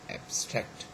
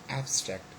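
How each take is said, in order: First: The stress is on the second syllable. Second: The stress is on the first syllable. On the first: It is used as a verb. "the second in the verb" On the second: It is used as an adjective. "the first syllable is stressed in adjective"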